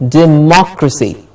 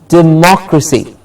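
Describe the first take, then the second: First: The stress is on the second syllable. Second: The stress is on the second syllable.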